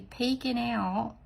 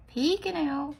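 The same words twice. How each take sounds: First: Said in the usual way. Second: Higher, louder playful repeat; PEEKING lifted high and punched like peekaboo. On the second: Pretend. Nail artist playing with the little guy, playful peekaboo.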